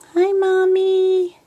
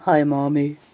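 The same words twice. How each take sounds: First: It is said in a higher voice. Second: It is said in a deeper voice. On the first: A little girl is speaking. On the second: A little boy is speaking.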